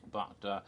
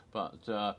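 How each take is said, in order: Both takes have the same delivery.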